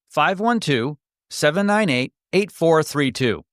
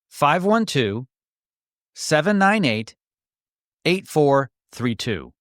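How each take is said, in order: First: The number is read at a faster pace. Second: The number is read at a slower pace.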